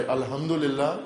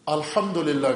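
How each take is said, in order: First: "الحمدللہ" with a non-Arabic, everyday h for ح; wrong Arabic pronunciation. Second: "الحمدللہ" with a proper Arabic ح; correct Arabic pronunciation. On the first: Cleric showing what to avoid in prayer, mispronounced "الحمدللہ" with local h. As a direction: say "الحمدللہ" in a local accent, without Arabic articulation. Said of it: "نہ کہے". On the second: Cleric modelling correct prayer Arabic, careful Arabic pronunciation of "الحمدللہ". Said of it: "عربی تلفظ درست ہو اس کا". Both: Shown as a demonstration.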